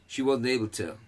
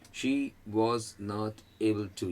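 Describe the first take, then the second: First: The words run together as one sound. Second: Each word is said separately and fully. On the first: "एक word, एक उच्चार, एक ध्वनि, एक sound"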